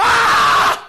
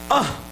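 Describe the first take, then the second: First: Long, high, loud "aaah" scream; full-force yell. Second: Short, blocked "ah" at ordinary volume; feeble yell attempt. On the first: Shown as a demonstration. Pastor showing the young man how to shout, full-force yell. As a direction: demonstrate a yell with everything you have. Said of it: "제가 가리켜서 소리 지르는 거". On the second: Young man urged to yell harder, feeble attempt. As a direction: imitate a yell that will not come out. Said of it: "네가 힘껏 질러봐".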